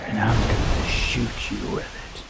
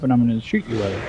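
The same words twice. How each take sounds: First: Low, breathless creepy threat in a whisper; ominous whisper. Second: Quick, teasing mock threat; playful threat. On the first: Retold or imitated. Strange old lady aiming the water gun at his face, whispered menace. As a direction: whisper it like a curse. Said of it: "she was so ominous with everything". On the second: Ex teasing him with a water gun, playful and quick. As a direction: rattle it off like a joke. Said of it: "and just jokingly, playfully".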